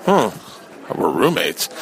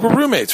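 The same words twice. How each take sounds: First: Baffled echo. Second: Breezy roommate. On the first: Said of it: "And I was like". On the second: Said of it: "She's like". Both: Retold or imitated.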